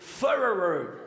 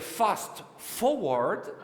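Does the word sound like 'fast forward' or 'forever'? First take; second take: forever; fast forward. First: It is blurred into something like 'forever'. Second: It is said clearly as 'fast forward'. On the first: This is how the button name was misread as children. The speaker calls it wrong. "deux touches qu'on n'a jamais réussi à prononcer" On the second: This is what the button name really meant. The speaker calls it right. "ça voulait dire fast forward"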